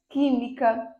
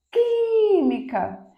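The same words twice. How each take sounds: First: Said in the usual way. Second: "química" with QUÍ held long and very high; stress on first syllable. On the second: Shown as a demonstration. Teacher marking the tonic syllable, "química" with a long high QUÍ. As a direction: call out "química", stretching the QUÍ. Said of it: "antepenúltima".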